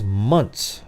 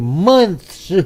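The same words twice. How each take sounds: First: The word ends with a plain t sound. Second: The word ends with a lisped th sound. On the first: "M U N T S" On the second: "Spitting all over everybody"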